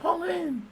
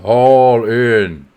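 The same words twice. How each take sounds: First: It is said in a high-pitched voice. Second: It is said in a deep voice. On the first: "sometimes you get a high pitched voice" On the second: "sometimes you have a deep voice"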